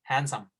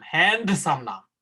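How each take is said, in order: First: হ্যান্ডসাম as hansam, no d; correct pronunciation. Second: হ্যান্ডসাম with a hard d sounded, slow; wrong pronunciation. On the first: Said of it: "হ্যান্ডসাম না, হ্যান্ডসাম". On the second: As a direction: say হ্যান্ডসাম as hand-some with the d. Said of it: "উচ্চারণ কিন্তু হ্যান্ডসাম, হ্যান্ডসাম না". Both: Shown as a demonstration.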